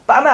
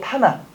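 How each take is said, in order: First: The word begins with a tense, unaspirated consonant. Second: The word begins with an aspirated, breathy consonant. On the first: The speaker calls it wrong. "빠마 아니죠" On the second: The speaker calls it right.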